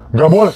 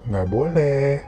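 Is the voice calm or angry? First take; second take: angry; calm. First: It is said in a big, angry voice. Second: It is said in a calm, gentle voice.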